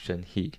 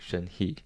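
First: The name is said with an American pronunciation. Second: The name is said with an American pronunciation.

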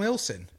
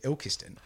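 First: The middle syllable is dropped, said as two syllables. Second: Every syllable is said in full, including the k. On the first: The speaker calls it right. "he's from Ilson" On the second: The speaker calls it wrong. "No one pronounces it Ilkeston"

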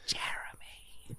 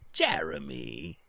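First: It is whispered softly. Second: It is said in a normal speaking voice.

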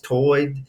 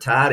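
First: The vowel sounds like oy, in the brogue. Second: The vowel sounds like eye, the standard way. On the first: "speak in the old English brogue" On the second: "instead of tide"

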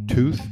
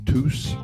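First: The word ends with a 'th' sound. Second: The word ends with an 's' sound.

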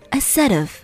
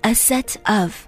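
First: The words are linked together smoothly. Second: The words are said separately. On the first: The speaker calls it right. "想要更地道的把它连起来，It sounds like" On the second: The speaker calls it wrong. "与其说A set of"

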